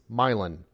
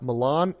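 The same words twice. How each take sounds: First: It is said with a local Midwestern pronunciation. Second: It is said with the standard pronunciation. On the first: This is how the local city name is said. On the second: This is how the Italian city name is said. "It's not"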